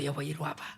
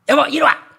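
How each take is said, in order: First: It is said in a sweet, gentle tone. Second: It is said as a harsh, bossy command.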